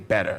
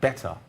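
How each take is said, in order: First: It is said with a strongly American accent. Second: It is said with a standard, neutral accent. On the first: "if I get really American, I'm considering other features of the accent" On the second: "that's a standard pronunciation"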